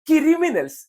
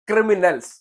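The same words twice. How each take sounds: First: A vowel is inserted, giving 'kiri' at the start. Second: It starts with the cluster 'kri', no inserted vowel. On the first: The speaker calls it wrong. "കിരിയല്ല ഏട്ടാ, കിരി എന്നല്ല" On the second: The speaker calls it right. "ക്രിമിനൽസ് എന്നാണ് അതിന് ഉച്ചരിക്കേണ്ടത്"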